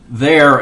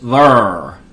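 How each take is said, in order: First: It is said in a standard American way. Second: It is said with a St. Louis accent.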